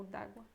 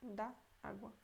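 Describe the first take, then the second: First: "d'água" run together as one word; contracted form. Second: "Da água" said softly as two distinct words; two separate words. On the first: Teacher weighing two written forms, "d'água" contracted. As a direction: merge it into a short, soft "d'água". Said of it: "Deveria ficar talvez assim". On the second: Teacher weighing two written forms, "Da água" uncontracted. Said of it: "É assim". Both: Shown as a demonstration.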